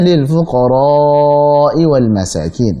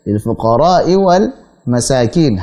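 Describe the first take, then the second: First: The vowel before the hamza is held long. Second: The vowel before the hamza is held briefly. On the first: The speaker calls it right. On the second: The speaker calls it wrong. "dia baca dua harakat"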